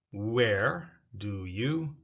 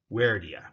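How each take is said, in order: First: "Where do you" said slowly, "you" full; slow full form. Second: "Where do ya" with "you" reduced to "ya". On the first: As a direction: spell out every word of "Where do you". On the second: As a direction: blend it into "where do ya". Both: Shown as a demonstration. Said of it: "Where do you becomes where do ya".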